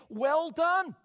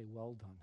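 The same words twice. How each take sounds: First: High, loud cried well done. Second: Soft, low Well done; quiet well done. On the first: Preacher crying out Well done loudly. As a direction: cry out Well done at full force. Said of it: "Could I say to them". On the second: Preacher softly voicing the Lord's Well done. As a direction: let Well done fall away softly. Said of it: "look down at us and say". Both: Shown as a demonstration.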